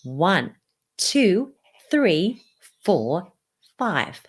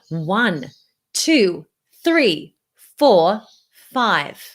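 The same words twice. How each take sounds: First: The counting is spoken at a soft volume. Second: The counting is spoken at a fairly loud volume. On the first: "I'm going to lower the volume one more time" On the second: "now I'm going to lower the volume only"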